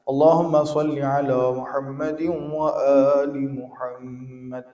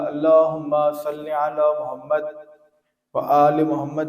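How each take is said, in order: First: It runs on from Muhammadin without any stop. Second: It stops on the first Muhammad before continuing.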